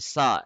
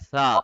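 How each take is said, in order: First: The first sound is a sharp, hissing s. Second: The first sound is a soft th-like sound. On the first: The speaker calls it wrong. "एस की साउंड में आपने कन्वर्ट नहीं करना... सा बिल्कुल गलत है" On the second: The speaker calls it right. "नरमी के साथ पढ़ना है सा"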